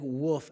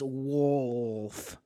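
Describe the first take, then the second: First: The L sound is weak or missing. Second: The L sound is clearly pronounced. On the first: The speaker calls it wrong. "she says I say like wolf" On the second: The speaker calls it right. "but it's wolf, like the L"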